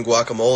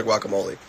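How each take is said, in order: First: "guacamole" ending in MOLE, silent final e; mispronounced guacamole. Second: "guacamole" ending in MOH-lee; pronounced guacamole. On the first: Unsure which is right, "guacamole" said as gwok-a-MOLE. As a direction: rhyme the end of "guacamole" with hole. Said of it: "guacamole or guacamole". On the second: Unsure which is right, "guacamole" said as gwok-a-MOH-lee. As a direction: sound the final e of "guacamole" as lee. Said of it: "unsure if it's been guacamole or". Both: Shown as a demonstration.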